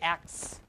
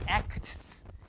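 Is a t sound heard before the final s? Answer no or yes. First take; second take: no; yes. First: The t sound is dropped before the s. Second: The t sound is pronounced before the s. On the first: "they delete the T. Okay? So we just say X" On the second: "we have k, t, and s"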